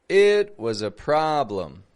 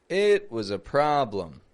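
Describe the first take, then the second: No difference in how they are said.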